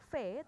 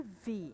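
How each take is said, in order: First: "V" said as "feh"; name the letter "V" the Indonesian way, with f; "V" with an f sound and eh vowel; V read wrongly. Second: "V" said as English "vee"; name the letter "V" with a buzzing v; "V" with voiced v and long ee; V read correctly. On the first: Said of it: "bacanya bukan". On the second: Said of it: "tapi V". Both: Shown as a demonstration.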